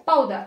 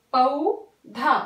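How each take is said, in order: First: Said in the usual way. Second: पौधा stretched slowly, पौ then धा; teacher spells पौधा out slowly; slow syllabified पौधा. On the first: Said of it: "क्या हुआ?". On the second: Shown as a demonstration. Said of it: "तो प plus औ प्लस ध प्लस आ".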